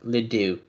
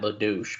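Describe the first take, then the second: First: The name ends on a vowel sound. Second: The name ends with a 'sh' sound. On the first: The speaker calls it right. "The C silent" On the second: The speaker calls it wrong. "Not Ledouche"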